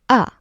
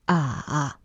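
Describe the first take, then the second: First: The pitch drops sharply and briefly. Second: The pitch dips down then comes up. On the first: "the last one is the drop. Short, angry" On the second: "the third tone is the dip"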